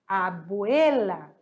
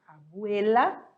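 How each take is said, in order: First: Abuela drawn out slowly, falling at the end, the e leaned on; stress on the E. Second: Abuela said slowly once more, rising, with the e pushed; stress on the E. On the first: Teacher showing students where Abuela carries its stress, slowly. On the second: Teacher repeats Abuela for the class, e pushed, rising. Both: Shown as a demonstration. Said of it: "é no E".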